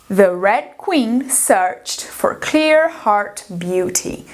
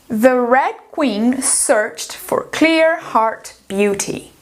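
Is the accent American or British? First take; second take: American; American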